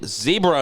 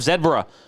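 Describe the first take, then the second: First: Zebra is said the American way. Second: Zebra is said the British way. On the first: "the Americans, they say ze- zebra" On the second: "instead of"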